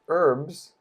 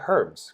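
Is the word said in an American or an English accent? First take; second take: American; English. First: It is said with an American pronunciation. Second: It is said with an English pronunciation.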